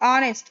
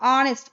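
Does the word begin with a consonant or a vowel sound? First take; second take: vowel; vowel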